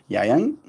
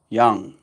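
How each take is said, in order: First: The vowel sounds like the a in 'bang'. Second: The vowel sounds like the u in 'young'. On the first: This is the westernized pronunciation. "that's the westernized pronunciation" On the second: This is the original pronunciation. "it's originally pronounced young"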